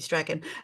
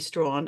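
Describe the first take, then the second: First: The name is said as two syllables. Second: The name is said as one syllable. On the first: The speaker calls it right. "that would be Strachan" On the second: The speaker calls it wrong. "she'd been calling me Strawn"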